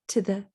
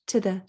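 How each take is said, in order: Both takes have the same delivery.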